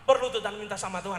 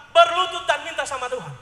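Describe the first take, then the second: First: Said in the usual way. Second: Much louder preached repeat; loud preached emphasis on Berlutut. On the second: Shown as a demonstration. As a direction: proclaim Berlutut dan minta sama Tuhan. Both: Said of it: "Sekali lagi".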